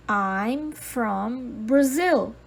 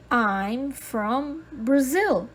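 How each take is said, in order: Both takes have the same delivery.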